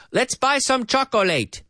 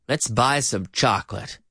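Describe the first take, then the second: First: CHOCOLATE as choc-o-LATE, three syllables, pitched high; mock the mistake, chocolate with a full "late"; mispronounced chocolate. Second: CHOCOLATE as CHOK-lit, falling; correct two syllables. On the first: Teacher imitating people making mistakes, three-syllable chocolate. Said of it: "People making mistakes". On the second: Teacher correcting people making mistakes, two-syllable chocolate. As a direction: say chocolate with no middle vowel and a weak ending. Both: Shown as a demonstration.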